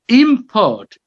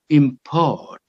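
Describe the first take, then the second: First: IM-port, high IM falling away; stress on first syllable. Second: Im-PORT, light start and a longer PORT; stress on second syllable. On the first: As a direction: hit IM in "Import", as the noun. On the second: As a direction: lean on PORT in "import", as the verb. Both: Shown as a demonstration. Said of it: "with a shift of stress".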